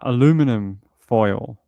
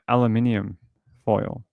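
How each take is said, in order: First: It is said with four syllables, alu-mi-num. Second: It is said with five syllables, alu-min-i-um. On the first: "like you guys say" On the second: "We say uh"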